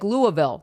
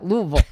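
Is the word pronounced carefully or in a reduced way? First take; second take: carefully; reduced. First: Every syllable of the word is fully pronounced. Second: The word is pronounced in a reduced, slurred way. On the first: This is how an outsider says the name. The speaker calls it wrong. "you overpronunciated it" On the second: This is how a local says the name. The speaker calls it right. "no, you didn't say it right"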